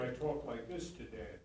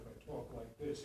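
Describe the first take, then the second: First: Supported voice aimed at the back row; projected stage voice. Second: Softer, lower, close conversational voice; intimate real-life talk. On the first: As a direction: speak to Dan but reach the balcony. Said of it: "In the theater". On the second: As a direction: talk just to the person beside you. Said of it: "if I'm talking to Dan in real life". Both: Shown as a demonstration.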